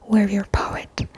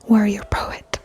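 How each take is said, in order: The two takes are said the same way.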